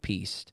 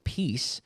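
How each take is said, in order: First: The word ends with an added T sound. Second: The word ends with a plain S sound. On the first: The speaker calls it wrong. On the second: The speaker calls it right.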